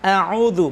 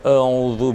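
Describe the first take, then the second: First: The opening a is light and thin. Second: The opening a is dark and heavy. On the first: The speaker calls it right. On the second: The speaker calls it wrong.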